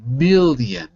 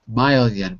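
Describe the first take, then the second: First: The first syllable sounds like 'mill'. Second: The first syllable sounds like 'mile'. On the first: The speaker calls it right. "but million, ill, ill" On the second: The speaker calls it wrong. "it sounded like you were saying mile"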